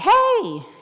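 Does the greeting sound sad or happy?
happy. The greeting sounds cheerful and happy.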